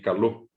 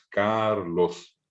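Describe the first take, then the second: First: The stress is on the last syllable. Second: The stress is on the first syllable. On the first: This is the Guarani form. "El acento fue a la O" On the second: This is the Spanish form. "En castellano es Carlos"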